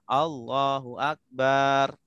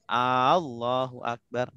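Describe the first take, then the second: First: The vowel of the last syllable is drawn out. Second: The opening vowel is drawn out long. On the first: It turns the word into drum. "Ketika kita panjangkan baknya" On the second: It asks whether God is great. "Kalau A-nya panjang"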